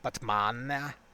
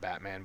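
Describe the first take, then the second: First: It is said with an exaggerated foreign-sounding pronunciation. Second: It is said with the ordinary English pronunciation. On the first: "is it actually pronounced like Batman?" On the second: "We might pronounce it Batman"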